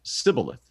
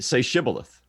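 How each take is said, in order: First: The word begins with a plain 's' sound. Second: The word begins with a 'sh' sound. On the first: The speaker calls it wrong. "they couldn't pronounce the SH" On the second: The speaker calls it right. "Say Shibboleth"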